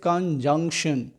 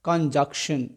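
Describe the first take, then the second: First: The middle n sound is clearly pronounced. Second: The middle n sound is left out. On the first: The speaker calls it right. "It is कंजंक्शन" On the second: The speaker calls it wrong. "Please do not pronounce it कंजक्शन"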